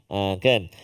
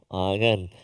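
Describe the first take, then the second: The two takes are said the same way.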